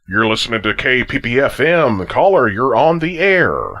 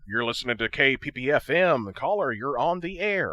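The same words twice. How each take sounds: First: The voice is louder, reverberant and pitch-shifted. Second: The voice is heard plain, without added effects.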